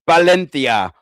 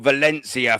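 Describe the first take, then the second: First: It is said with a Spanish pronunciation. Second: It is said with an English pronunciation. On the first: The speaker calls it right. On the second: The speaker calls it wrong.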